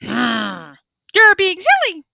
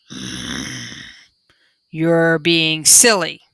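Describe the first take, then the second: First: High squawky parrot copy; a parrot's high, squawking echo; parrot growl. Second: Low, slow panda grumble; a lightly voiced grumbling panda; slow low panda mutter; panda growl. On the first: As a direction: parrot mimicking the panda's growl, pitched high. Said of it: "the parrot growled". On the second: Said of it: "Mingling growled". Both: A narrator's reading.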